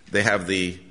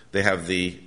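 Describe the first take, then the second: No difference in how they are said.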